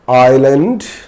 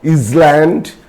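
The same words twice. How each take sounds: First: The s sound is left silent. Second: The s sound is clearly pronounced. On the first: The speaker calls it right. "S is silent" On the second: The speaker calls it wrong. "It's not island"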